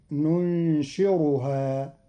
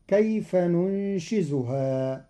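First: ننشرها said nunshiruha with a rolled r; ننشرها with ra, slowly. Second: ننشزها said nunshizuha with a z; ننشزها with zay, slowly. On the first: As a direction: roll the r in ننشرها. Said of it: "بالراء المهملة". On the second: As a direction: buzz the z in ننشزها. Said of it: "قرأ قالون كلمة ننشزها". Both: Shown as a demonstration.

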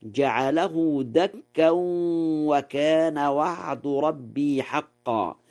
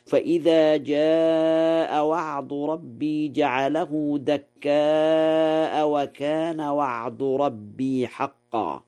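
First: دكا with tanween and no hamza, dakkan; Warsh reading. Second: دكاء with a hamza, dakkāʾa, recited slowly; standard reading. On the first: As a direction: slowly recite دكا as dakkan. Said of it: "قرأ ورش". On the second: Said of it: "قوله تعالى". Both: Shown as a demonstration.

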